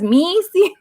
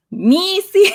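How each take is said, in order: First: Put-on a touch of a Spanish accent on Missy; Missy with mock Spanish vowels; Missy in a light Spanish accent; Spanish-accented Missy, high. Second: Put-on a touch of a Spanish accent on Missy, pitched up; Missy said with mock Spanish vowels; Spanish-accented Missy, high. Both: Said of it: "getting her Spanish accent".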